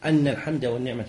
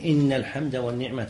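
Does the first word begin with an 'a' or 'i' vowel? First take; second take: a; i. First: The first word begins with an 'a' vowel. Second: The first word begins with an 'i' vowel. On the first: The praise is given as the reason. "ويجوز فتح الهمزة بأن يقول أن" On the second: The praise is stated as a new sentence. "المستحب كسر همزة إن"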